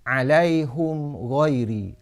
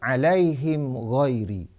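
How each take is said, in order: First: A u vowel before h; the m has no vowel. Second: An i vowel before h; the m has no vowel. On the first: This is another reciter's reading. "dhammah ha dan iskan mim jamak" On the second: This is one reciter's reading. "kasrah ha dan iskan mim jamak, iaitu baris di bawah ha dan matikan mim jamak"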